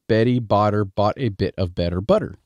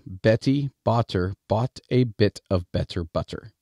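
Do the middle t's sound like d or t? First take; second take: d; t. First: The middle t's sound like a soft d. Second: The middle t's sound like a clear t. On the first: The speaker calls it wrong. "how I turn middle consonants from the T sound into the D sound" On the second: The speaker calls it right. "I will pronounce it better for you"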